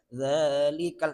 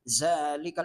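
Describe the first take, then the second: First: It begins with a 'th' sound, tongue tip out. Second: It begins with a buzzing 'z' sound. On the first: The speaker calls it right. "Za itu ujung lidah" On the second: The speaker calls it wrong. "dominan Z-nya. Zalikal itu salah"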